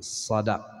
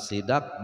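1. Vokal pertama adalah bunyi a. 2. Vokal pertama adalah bunyi i. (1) "tapi sadak" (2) "bukan sidak"

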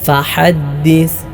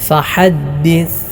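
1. h തൊണ്ടയിൽ നിന്ന് മുറുകിയതാണ്. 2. h തൊണ്ടയിൽ നിന്ന് മുറുകിയതാണ്.

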